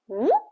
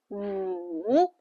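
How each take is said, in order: First: The pitch rises like a question. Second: The pitch dips low, then rises. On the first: "Go up" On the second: "Life push you down, and you go up"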